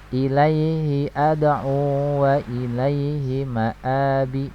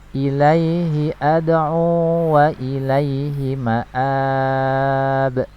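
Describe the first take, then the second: First: The phrase ends on a vowel, running onward. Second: The phrase stops on a final consonant. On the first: The reading continues into the next verse. "ketika kita wasal" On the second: The reading stops at the end of the verse. "ini waqaf"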